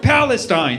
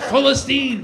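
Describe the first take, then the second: First: The name has the English pronunciation. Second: The name has the Arabic pronunciation. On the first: The name feels stale. The speaker calls it wrong. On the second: The name feels free. The speaker calls it right.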